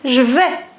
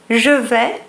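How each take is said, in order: First: The vowel of je is dropped. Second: The vowel of je is fully pronounced.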